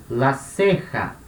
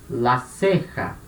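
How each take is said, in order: No difference in how they are said.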